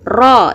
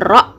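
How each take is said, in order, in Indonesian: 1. Vokalnya ditahan panjang selama satu ketukan. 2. Vokalnya pendek dan singkat. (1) "kita lafalkan dengan harokat fathah panjang" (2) "bukan ro"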